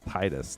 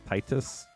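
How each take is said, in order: First: The first syllable sounds like the word tide. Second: The first syllable does not sound like tide. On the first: This is the speaker's own habitual way. "I say it like Titus" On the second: This is the technically correct way. "not Titus"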